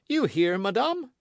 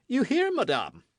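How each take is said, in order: First: Louder, insistent repeated taunt; pressing gloating king. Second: Much higher, louder taunting question; gloating king. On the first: King repeating his taunt to the queen, insistent. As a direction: press the question home. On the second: King taunting the frightened queen, gloating. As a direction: savour her discomfort. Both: A narrator's reading. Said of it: "said the king, who enjoyed the embarrassment".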